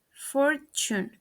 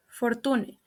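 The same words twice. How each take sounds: First: "fortune" as FOR-chun; correct pronunciation. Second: "fortune" as for-TOO-neh; mispronounced. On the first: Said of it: "The correct pronunciation is". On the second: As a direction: read "fortune" as spelt, with t. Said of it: "mispronounced is". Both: Shown as a demonstration.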